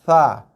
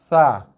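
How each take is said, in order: First: A soft th-like sound at the teeth edge. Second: The same.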